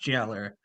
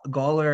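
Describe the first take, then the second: First: The word begins with a J sound. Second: The word begins with a hard G sound. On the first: The speaker calls it right. "it's pronounced Jailer" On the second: The speaker calls it wrong. "I thought that we pronounced it uh, Ga- Gawler"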